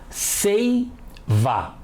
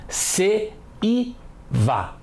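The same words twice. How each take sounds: First: The vowels e and i form one syllable. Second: The vowels e and i form two syllables. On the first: The speaker calls it right. "E são pronunciadas juntas, certo?" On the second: The speaker calls it wrong. "E e I são pronunciadas separadas, errado"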